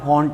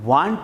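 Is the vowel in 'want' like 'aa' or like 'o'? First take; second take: o; aa. First: The vowel sounds like a rounded 'o' sound. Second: The vowel sounds like the open 'aa' sound. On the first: The speaker calls it right. "પણ વોન્ટ વંચાય" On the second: The speaker calls it wrong. "નહીં"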